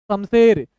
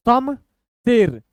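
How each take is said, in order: First: Said in the usual way. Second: Slow, pause between the two halves; broken in two. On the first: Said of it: "थोड़ा सा speed बढ़ाते हैं". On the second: Shown as a demonstration. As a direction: read it two letters at a time. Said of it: "दो दो अक्षर तोड़ तोड़ के".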